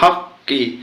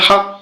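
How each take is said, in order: First: The word ends with a short 'i' vowel. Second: The word ends on the 'q' consonant. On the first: The reading continues without stopping. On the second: The reader stops here.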